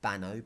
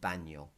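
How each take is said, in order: First: The middle consonant is a plain n sound. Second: The middle consonant is an ny sound. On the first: The speaker calls it wrong. "So it's not bano" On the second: The speaker calls it right. "but baño"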